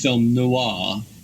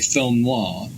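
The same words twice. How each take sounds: First: Noir is said as two syllables. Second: Noir is said as one syllable. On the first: "like it's a double syllable noir" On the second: "a person who used to say"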